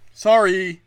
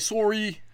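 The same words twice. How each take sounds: First: It is said in the speaker's ordinary accent. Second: It is said in an imitated Canadian accent.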